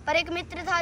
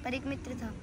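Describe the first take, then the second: First: Steady rhythmic declamation; full-voiced recital. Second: Soft verse lead-in; hushed recital. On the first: Full-voiced repeat of verse. (पूरे स्वर में कविता पाठ) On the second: Acted. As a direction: say it quietly, trailing down. Soft first take of verse. (धीमे, दबे स्वर में)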